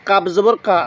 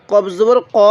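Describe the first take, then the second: First: কা as a light k with an open a; kaf sound. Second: ক as a throaty q with a rounded o; qaf sound. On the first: Teacher contrasting two letters for learners, কা as light "kaa". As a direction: make কা Arabic kaf, "kaa". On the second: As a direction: make ক Arabic qaf, "qo". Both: Shown as a demonstration. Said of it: "দুটোটা উচ্চারণের মধ্যে অনেকটা difference আছে".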